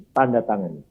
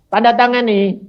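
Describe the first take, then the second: First: Said in the usual way. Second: Louder, higher official telling him to sign; a lightly voiced official pushing the paper across; official handing over paper. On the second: The official handing him the form, mildly brisk. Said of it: "disodori kertas".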